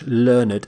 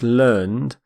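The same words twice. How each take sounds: First: The ending is a separate syllable. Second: The ending is not a separate syllable. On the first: It is the adjective meaning educated. The speaker calls it right. "We actually pronounce the E D ending completely" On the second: It is the verb form. The speaker calls it wrong. "you might think it's pronounced learned, but that's how we pronounce the verb"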